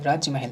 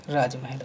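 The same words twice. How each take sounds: First: राज्य महल with an extra y after j; wrong word form. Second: राजमहल with plain j, no y; corrected word form. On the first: Teacher showing the mistake, राज्य महल with jya. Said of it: "राज्य महल नहीं होता है". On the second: Teacher giving the correct word, राजमहल without ya. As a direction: run raaj straight into mahal in राजमहल. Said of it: "राजमहल होता है". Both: Shown as a demonstration.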